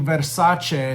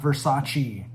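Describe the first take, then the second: First: The name is given its Italian pronunciation. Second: The name is given an anglicized pronunciation. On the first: The speaker calls it right. "it's actually Versace" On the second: The speaker calls it wrong. "not Versace"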